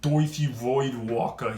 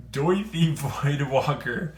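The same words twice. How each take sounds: First: Put-on slow Brooklyn accent on "Doithi Voidwalker", the "oi" drawn out. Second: Said in the usual way. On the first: Card reviewer jokingly renames the card, Brooklyn accent. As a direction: drawl "Doithi Voidwalker" the way a Brooklyn local would. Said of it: "in a, uh, Brooklyn accent". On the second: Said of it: "I'm gonna call him that".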